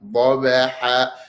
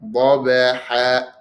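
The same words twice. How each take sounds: First: The first consonant is heavy, filling the mouth. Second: The first consonant is heavy, filling the mouth.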